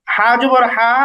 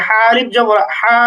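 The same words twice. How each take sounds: First: Said in the usual way. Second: Closing "হা" stretched out; madd elongation. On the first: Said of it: "হরকতের উচ্চারণে কোনো টান হয় না". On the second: Shown as a demonstration. Teacher adding alif to the letter, "হা" drawn out. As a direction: hold "হা" long for one alif. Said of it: "মাদের উচ্চারণে আমরা টেনে উচ্চারণ করি".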